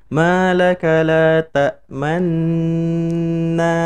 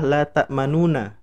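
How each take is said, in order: First: The 'nu' is merged, with only rounded lips. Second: The 'nu' syllable is said out in full. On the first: The vowel is only hinted at. "nu-nya di diisyaratkan dengan cukup mencucu, isyarat dummah aja" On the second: This is the underlying form of the word. "Sebenarnya eh, bunyi kalimatnya adalah la ta'manuna"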